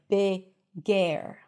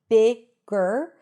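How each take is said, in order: First: A separate vowel is heard before the R. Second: The final R swallows the vowel before it. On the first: The speaker calls it wrong. "you're not adding a vowel sound there, like" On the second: The speaker calls it right. "we want to make sure that the R takes over the schwa"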